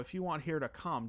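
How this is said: It is spoken in a Minnesota accent.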